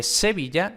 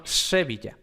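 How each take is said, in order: First: Said in the usual way. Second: "Sevilla" with the first s close to sh; northern-Spain "Sevilla" with a raspy, tongue-tip s; retracted Castilian S. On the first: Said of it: "no se dice, eh, Sevilla". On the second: Shown as a demonstration. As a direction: say "Sevilla" almost as "Shevilla". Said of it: "en algunas partes de España no se dice".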